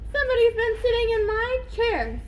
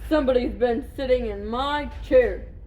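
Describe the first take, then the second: First: The voice is middle-sized. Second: The voice is great and big. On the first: A middle-sized bear is speaking. "in her middle-sized voice" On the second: A large bear is speaking. "in a great big voice"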